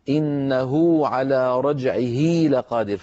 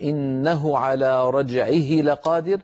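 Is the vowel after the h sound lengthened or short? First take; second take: lengthened; short. First: The vowels after the h sounds are lengthened. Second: The vowels after the h sounds are short. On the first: "فيطولون صوت الضمة فيتولد من التطويل واو" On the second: "بدل أن يقول"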